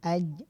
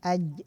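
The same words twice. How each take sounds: The two takes are said the same way.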